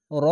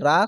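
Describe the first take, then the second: First: র with a full, rounded o vowel; heavy r. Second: রা with an open, thin aa vowel; light r. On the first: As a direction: thicken the vowel of র. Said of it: "র উচ্চারণটি র হবে". (মোটা করে র) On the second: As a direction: say রা with a spread a. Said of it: "রা কখনোই পড়বেন না". (পাতলা আ-কার দিয়ে রা) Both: Shown as a demonstration.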